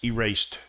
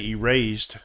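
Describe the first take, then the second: First: The word ends with a T sound. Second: The word ends with a D sound. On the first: The speaker calls it right. "but it's erased" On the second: The speaker calls it wrong. "this would be a D sound"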